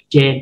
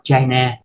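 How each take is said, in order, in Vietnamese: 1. Từ "Chan" được đọc thành một âm tiết. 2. Từ "Chan" được đọc thành hai âm tiết. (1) "đọc là Chan" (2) "đừng đọc China"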